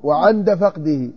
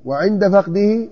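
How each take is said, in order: First: "وعند" said as wa-ʿanda, open a on the ʿayn, slow; slow "وعند" with a fatha on the ʿayn. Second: "وعند" said as wa-ʿinda, i on the ʿayn; "وعند" with a kasra on the ʿayn. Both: Shown as a demonstration. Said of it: "وعن-، وعند".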